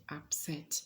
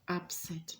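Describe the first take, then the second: First: Up-SET, "upset" stressed on the second syllable. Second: UP-set, "upset" stressed on the first syllable. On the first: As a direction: say "upset" as a verb, weight on the end. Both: Shown as a demonstration. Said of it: "not upset".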